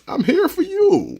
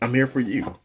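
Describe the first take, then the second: First: It is said in a put-on character voice. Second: It is said in the speaker's normal voice.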